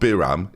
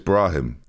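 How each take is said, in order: First: The name begins with 'Bi' and has no 'r' after 'B'. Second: The name begins with 'Bra', an 'r' after 'B'. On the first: The speaker calls it wrong. "It's not Biram" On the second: The speaker calls it right. "It's it's Brahim"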